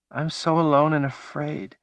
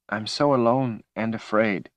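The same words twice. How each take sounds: First: Desperate wail. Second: Tearful lament. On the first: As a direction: cry it out from somewhere far away. Woman lost in vision, repeating. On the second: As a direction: whimper it like a lost child. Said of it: "she sobbed". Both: Acted.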